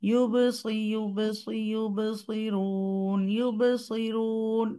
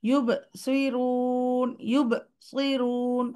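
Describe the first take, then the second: First: Slow ইউবসিরুন without a break; flowing sound. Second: Slow ইউবসিরুন with a break after the ba; wrong paused take; pause after ba. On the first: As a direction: let the bounce flow straight on. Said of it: "flowing থাকবে". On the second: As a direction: stop after the bounce, then go on. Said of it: "একটা pause দিয়ে দিই". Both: Shown as a demonstration.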